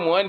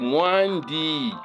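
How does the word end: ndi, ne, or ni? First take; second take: ni; ndi. First: The d is dropped and it ends in i. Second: The word ends with a d and an i. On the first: This is a shortened form of the word. "quand le dit là tombe, ça devient Mwani" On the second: This is the full form of the word. "Forme donc raccourci de Mwandi"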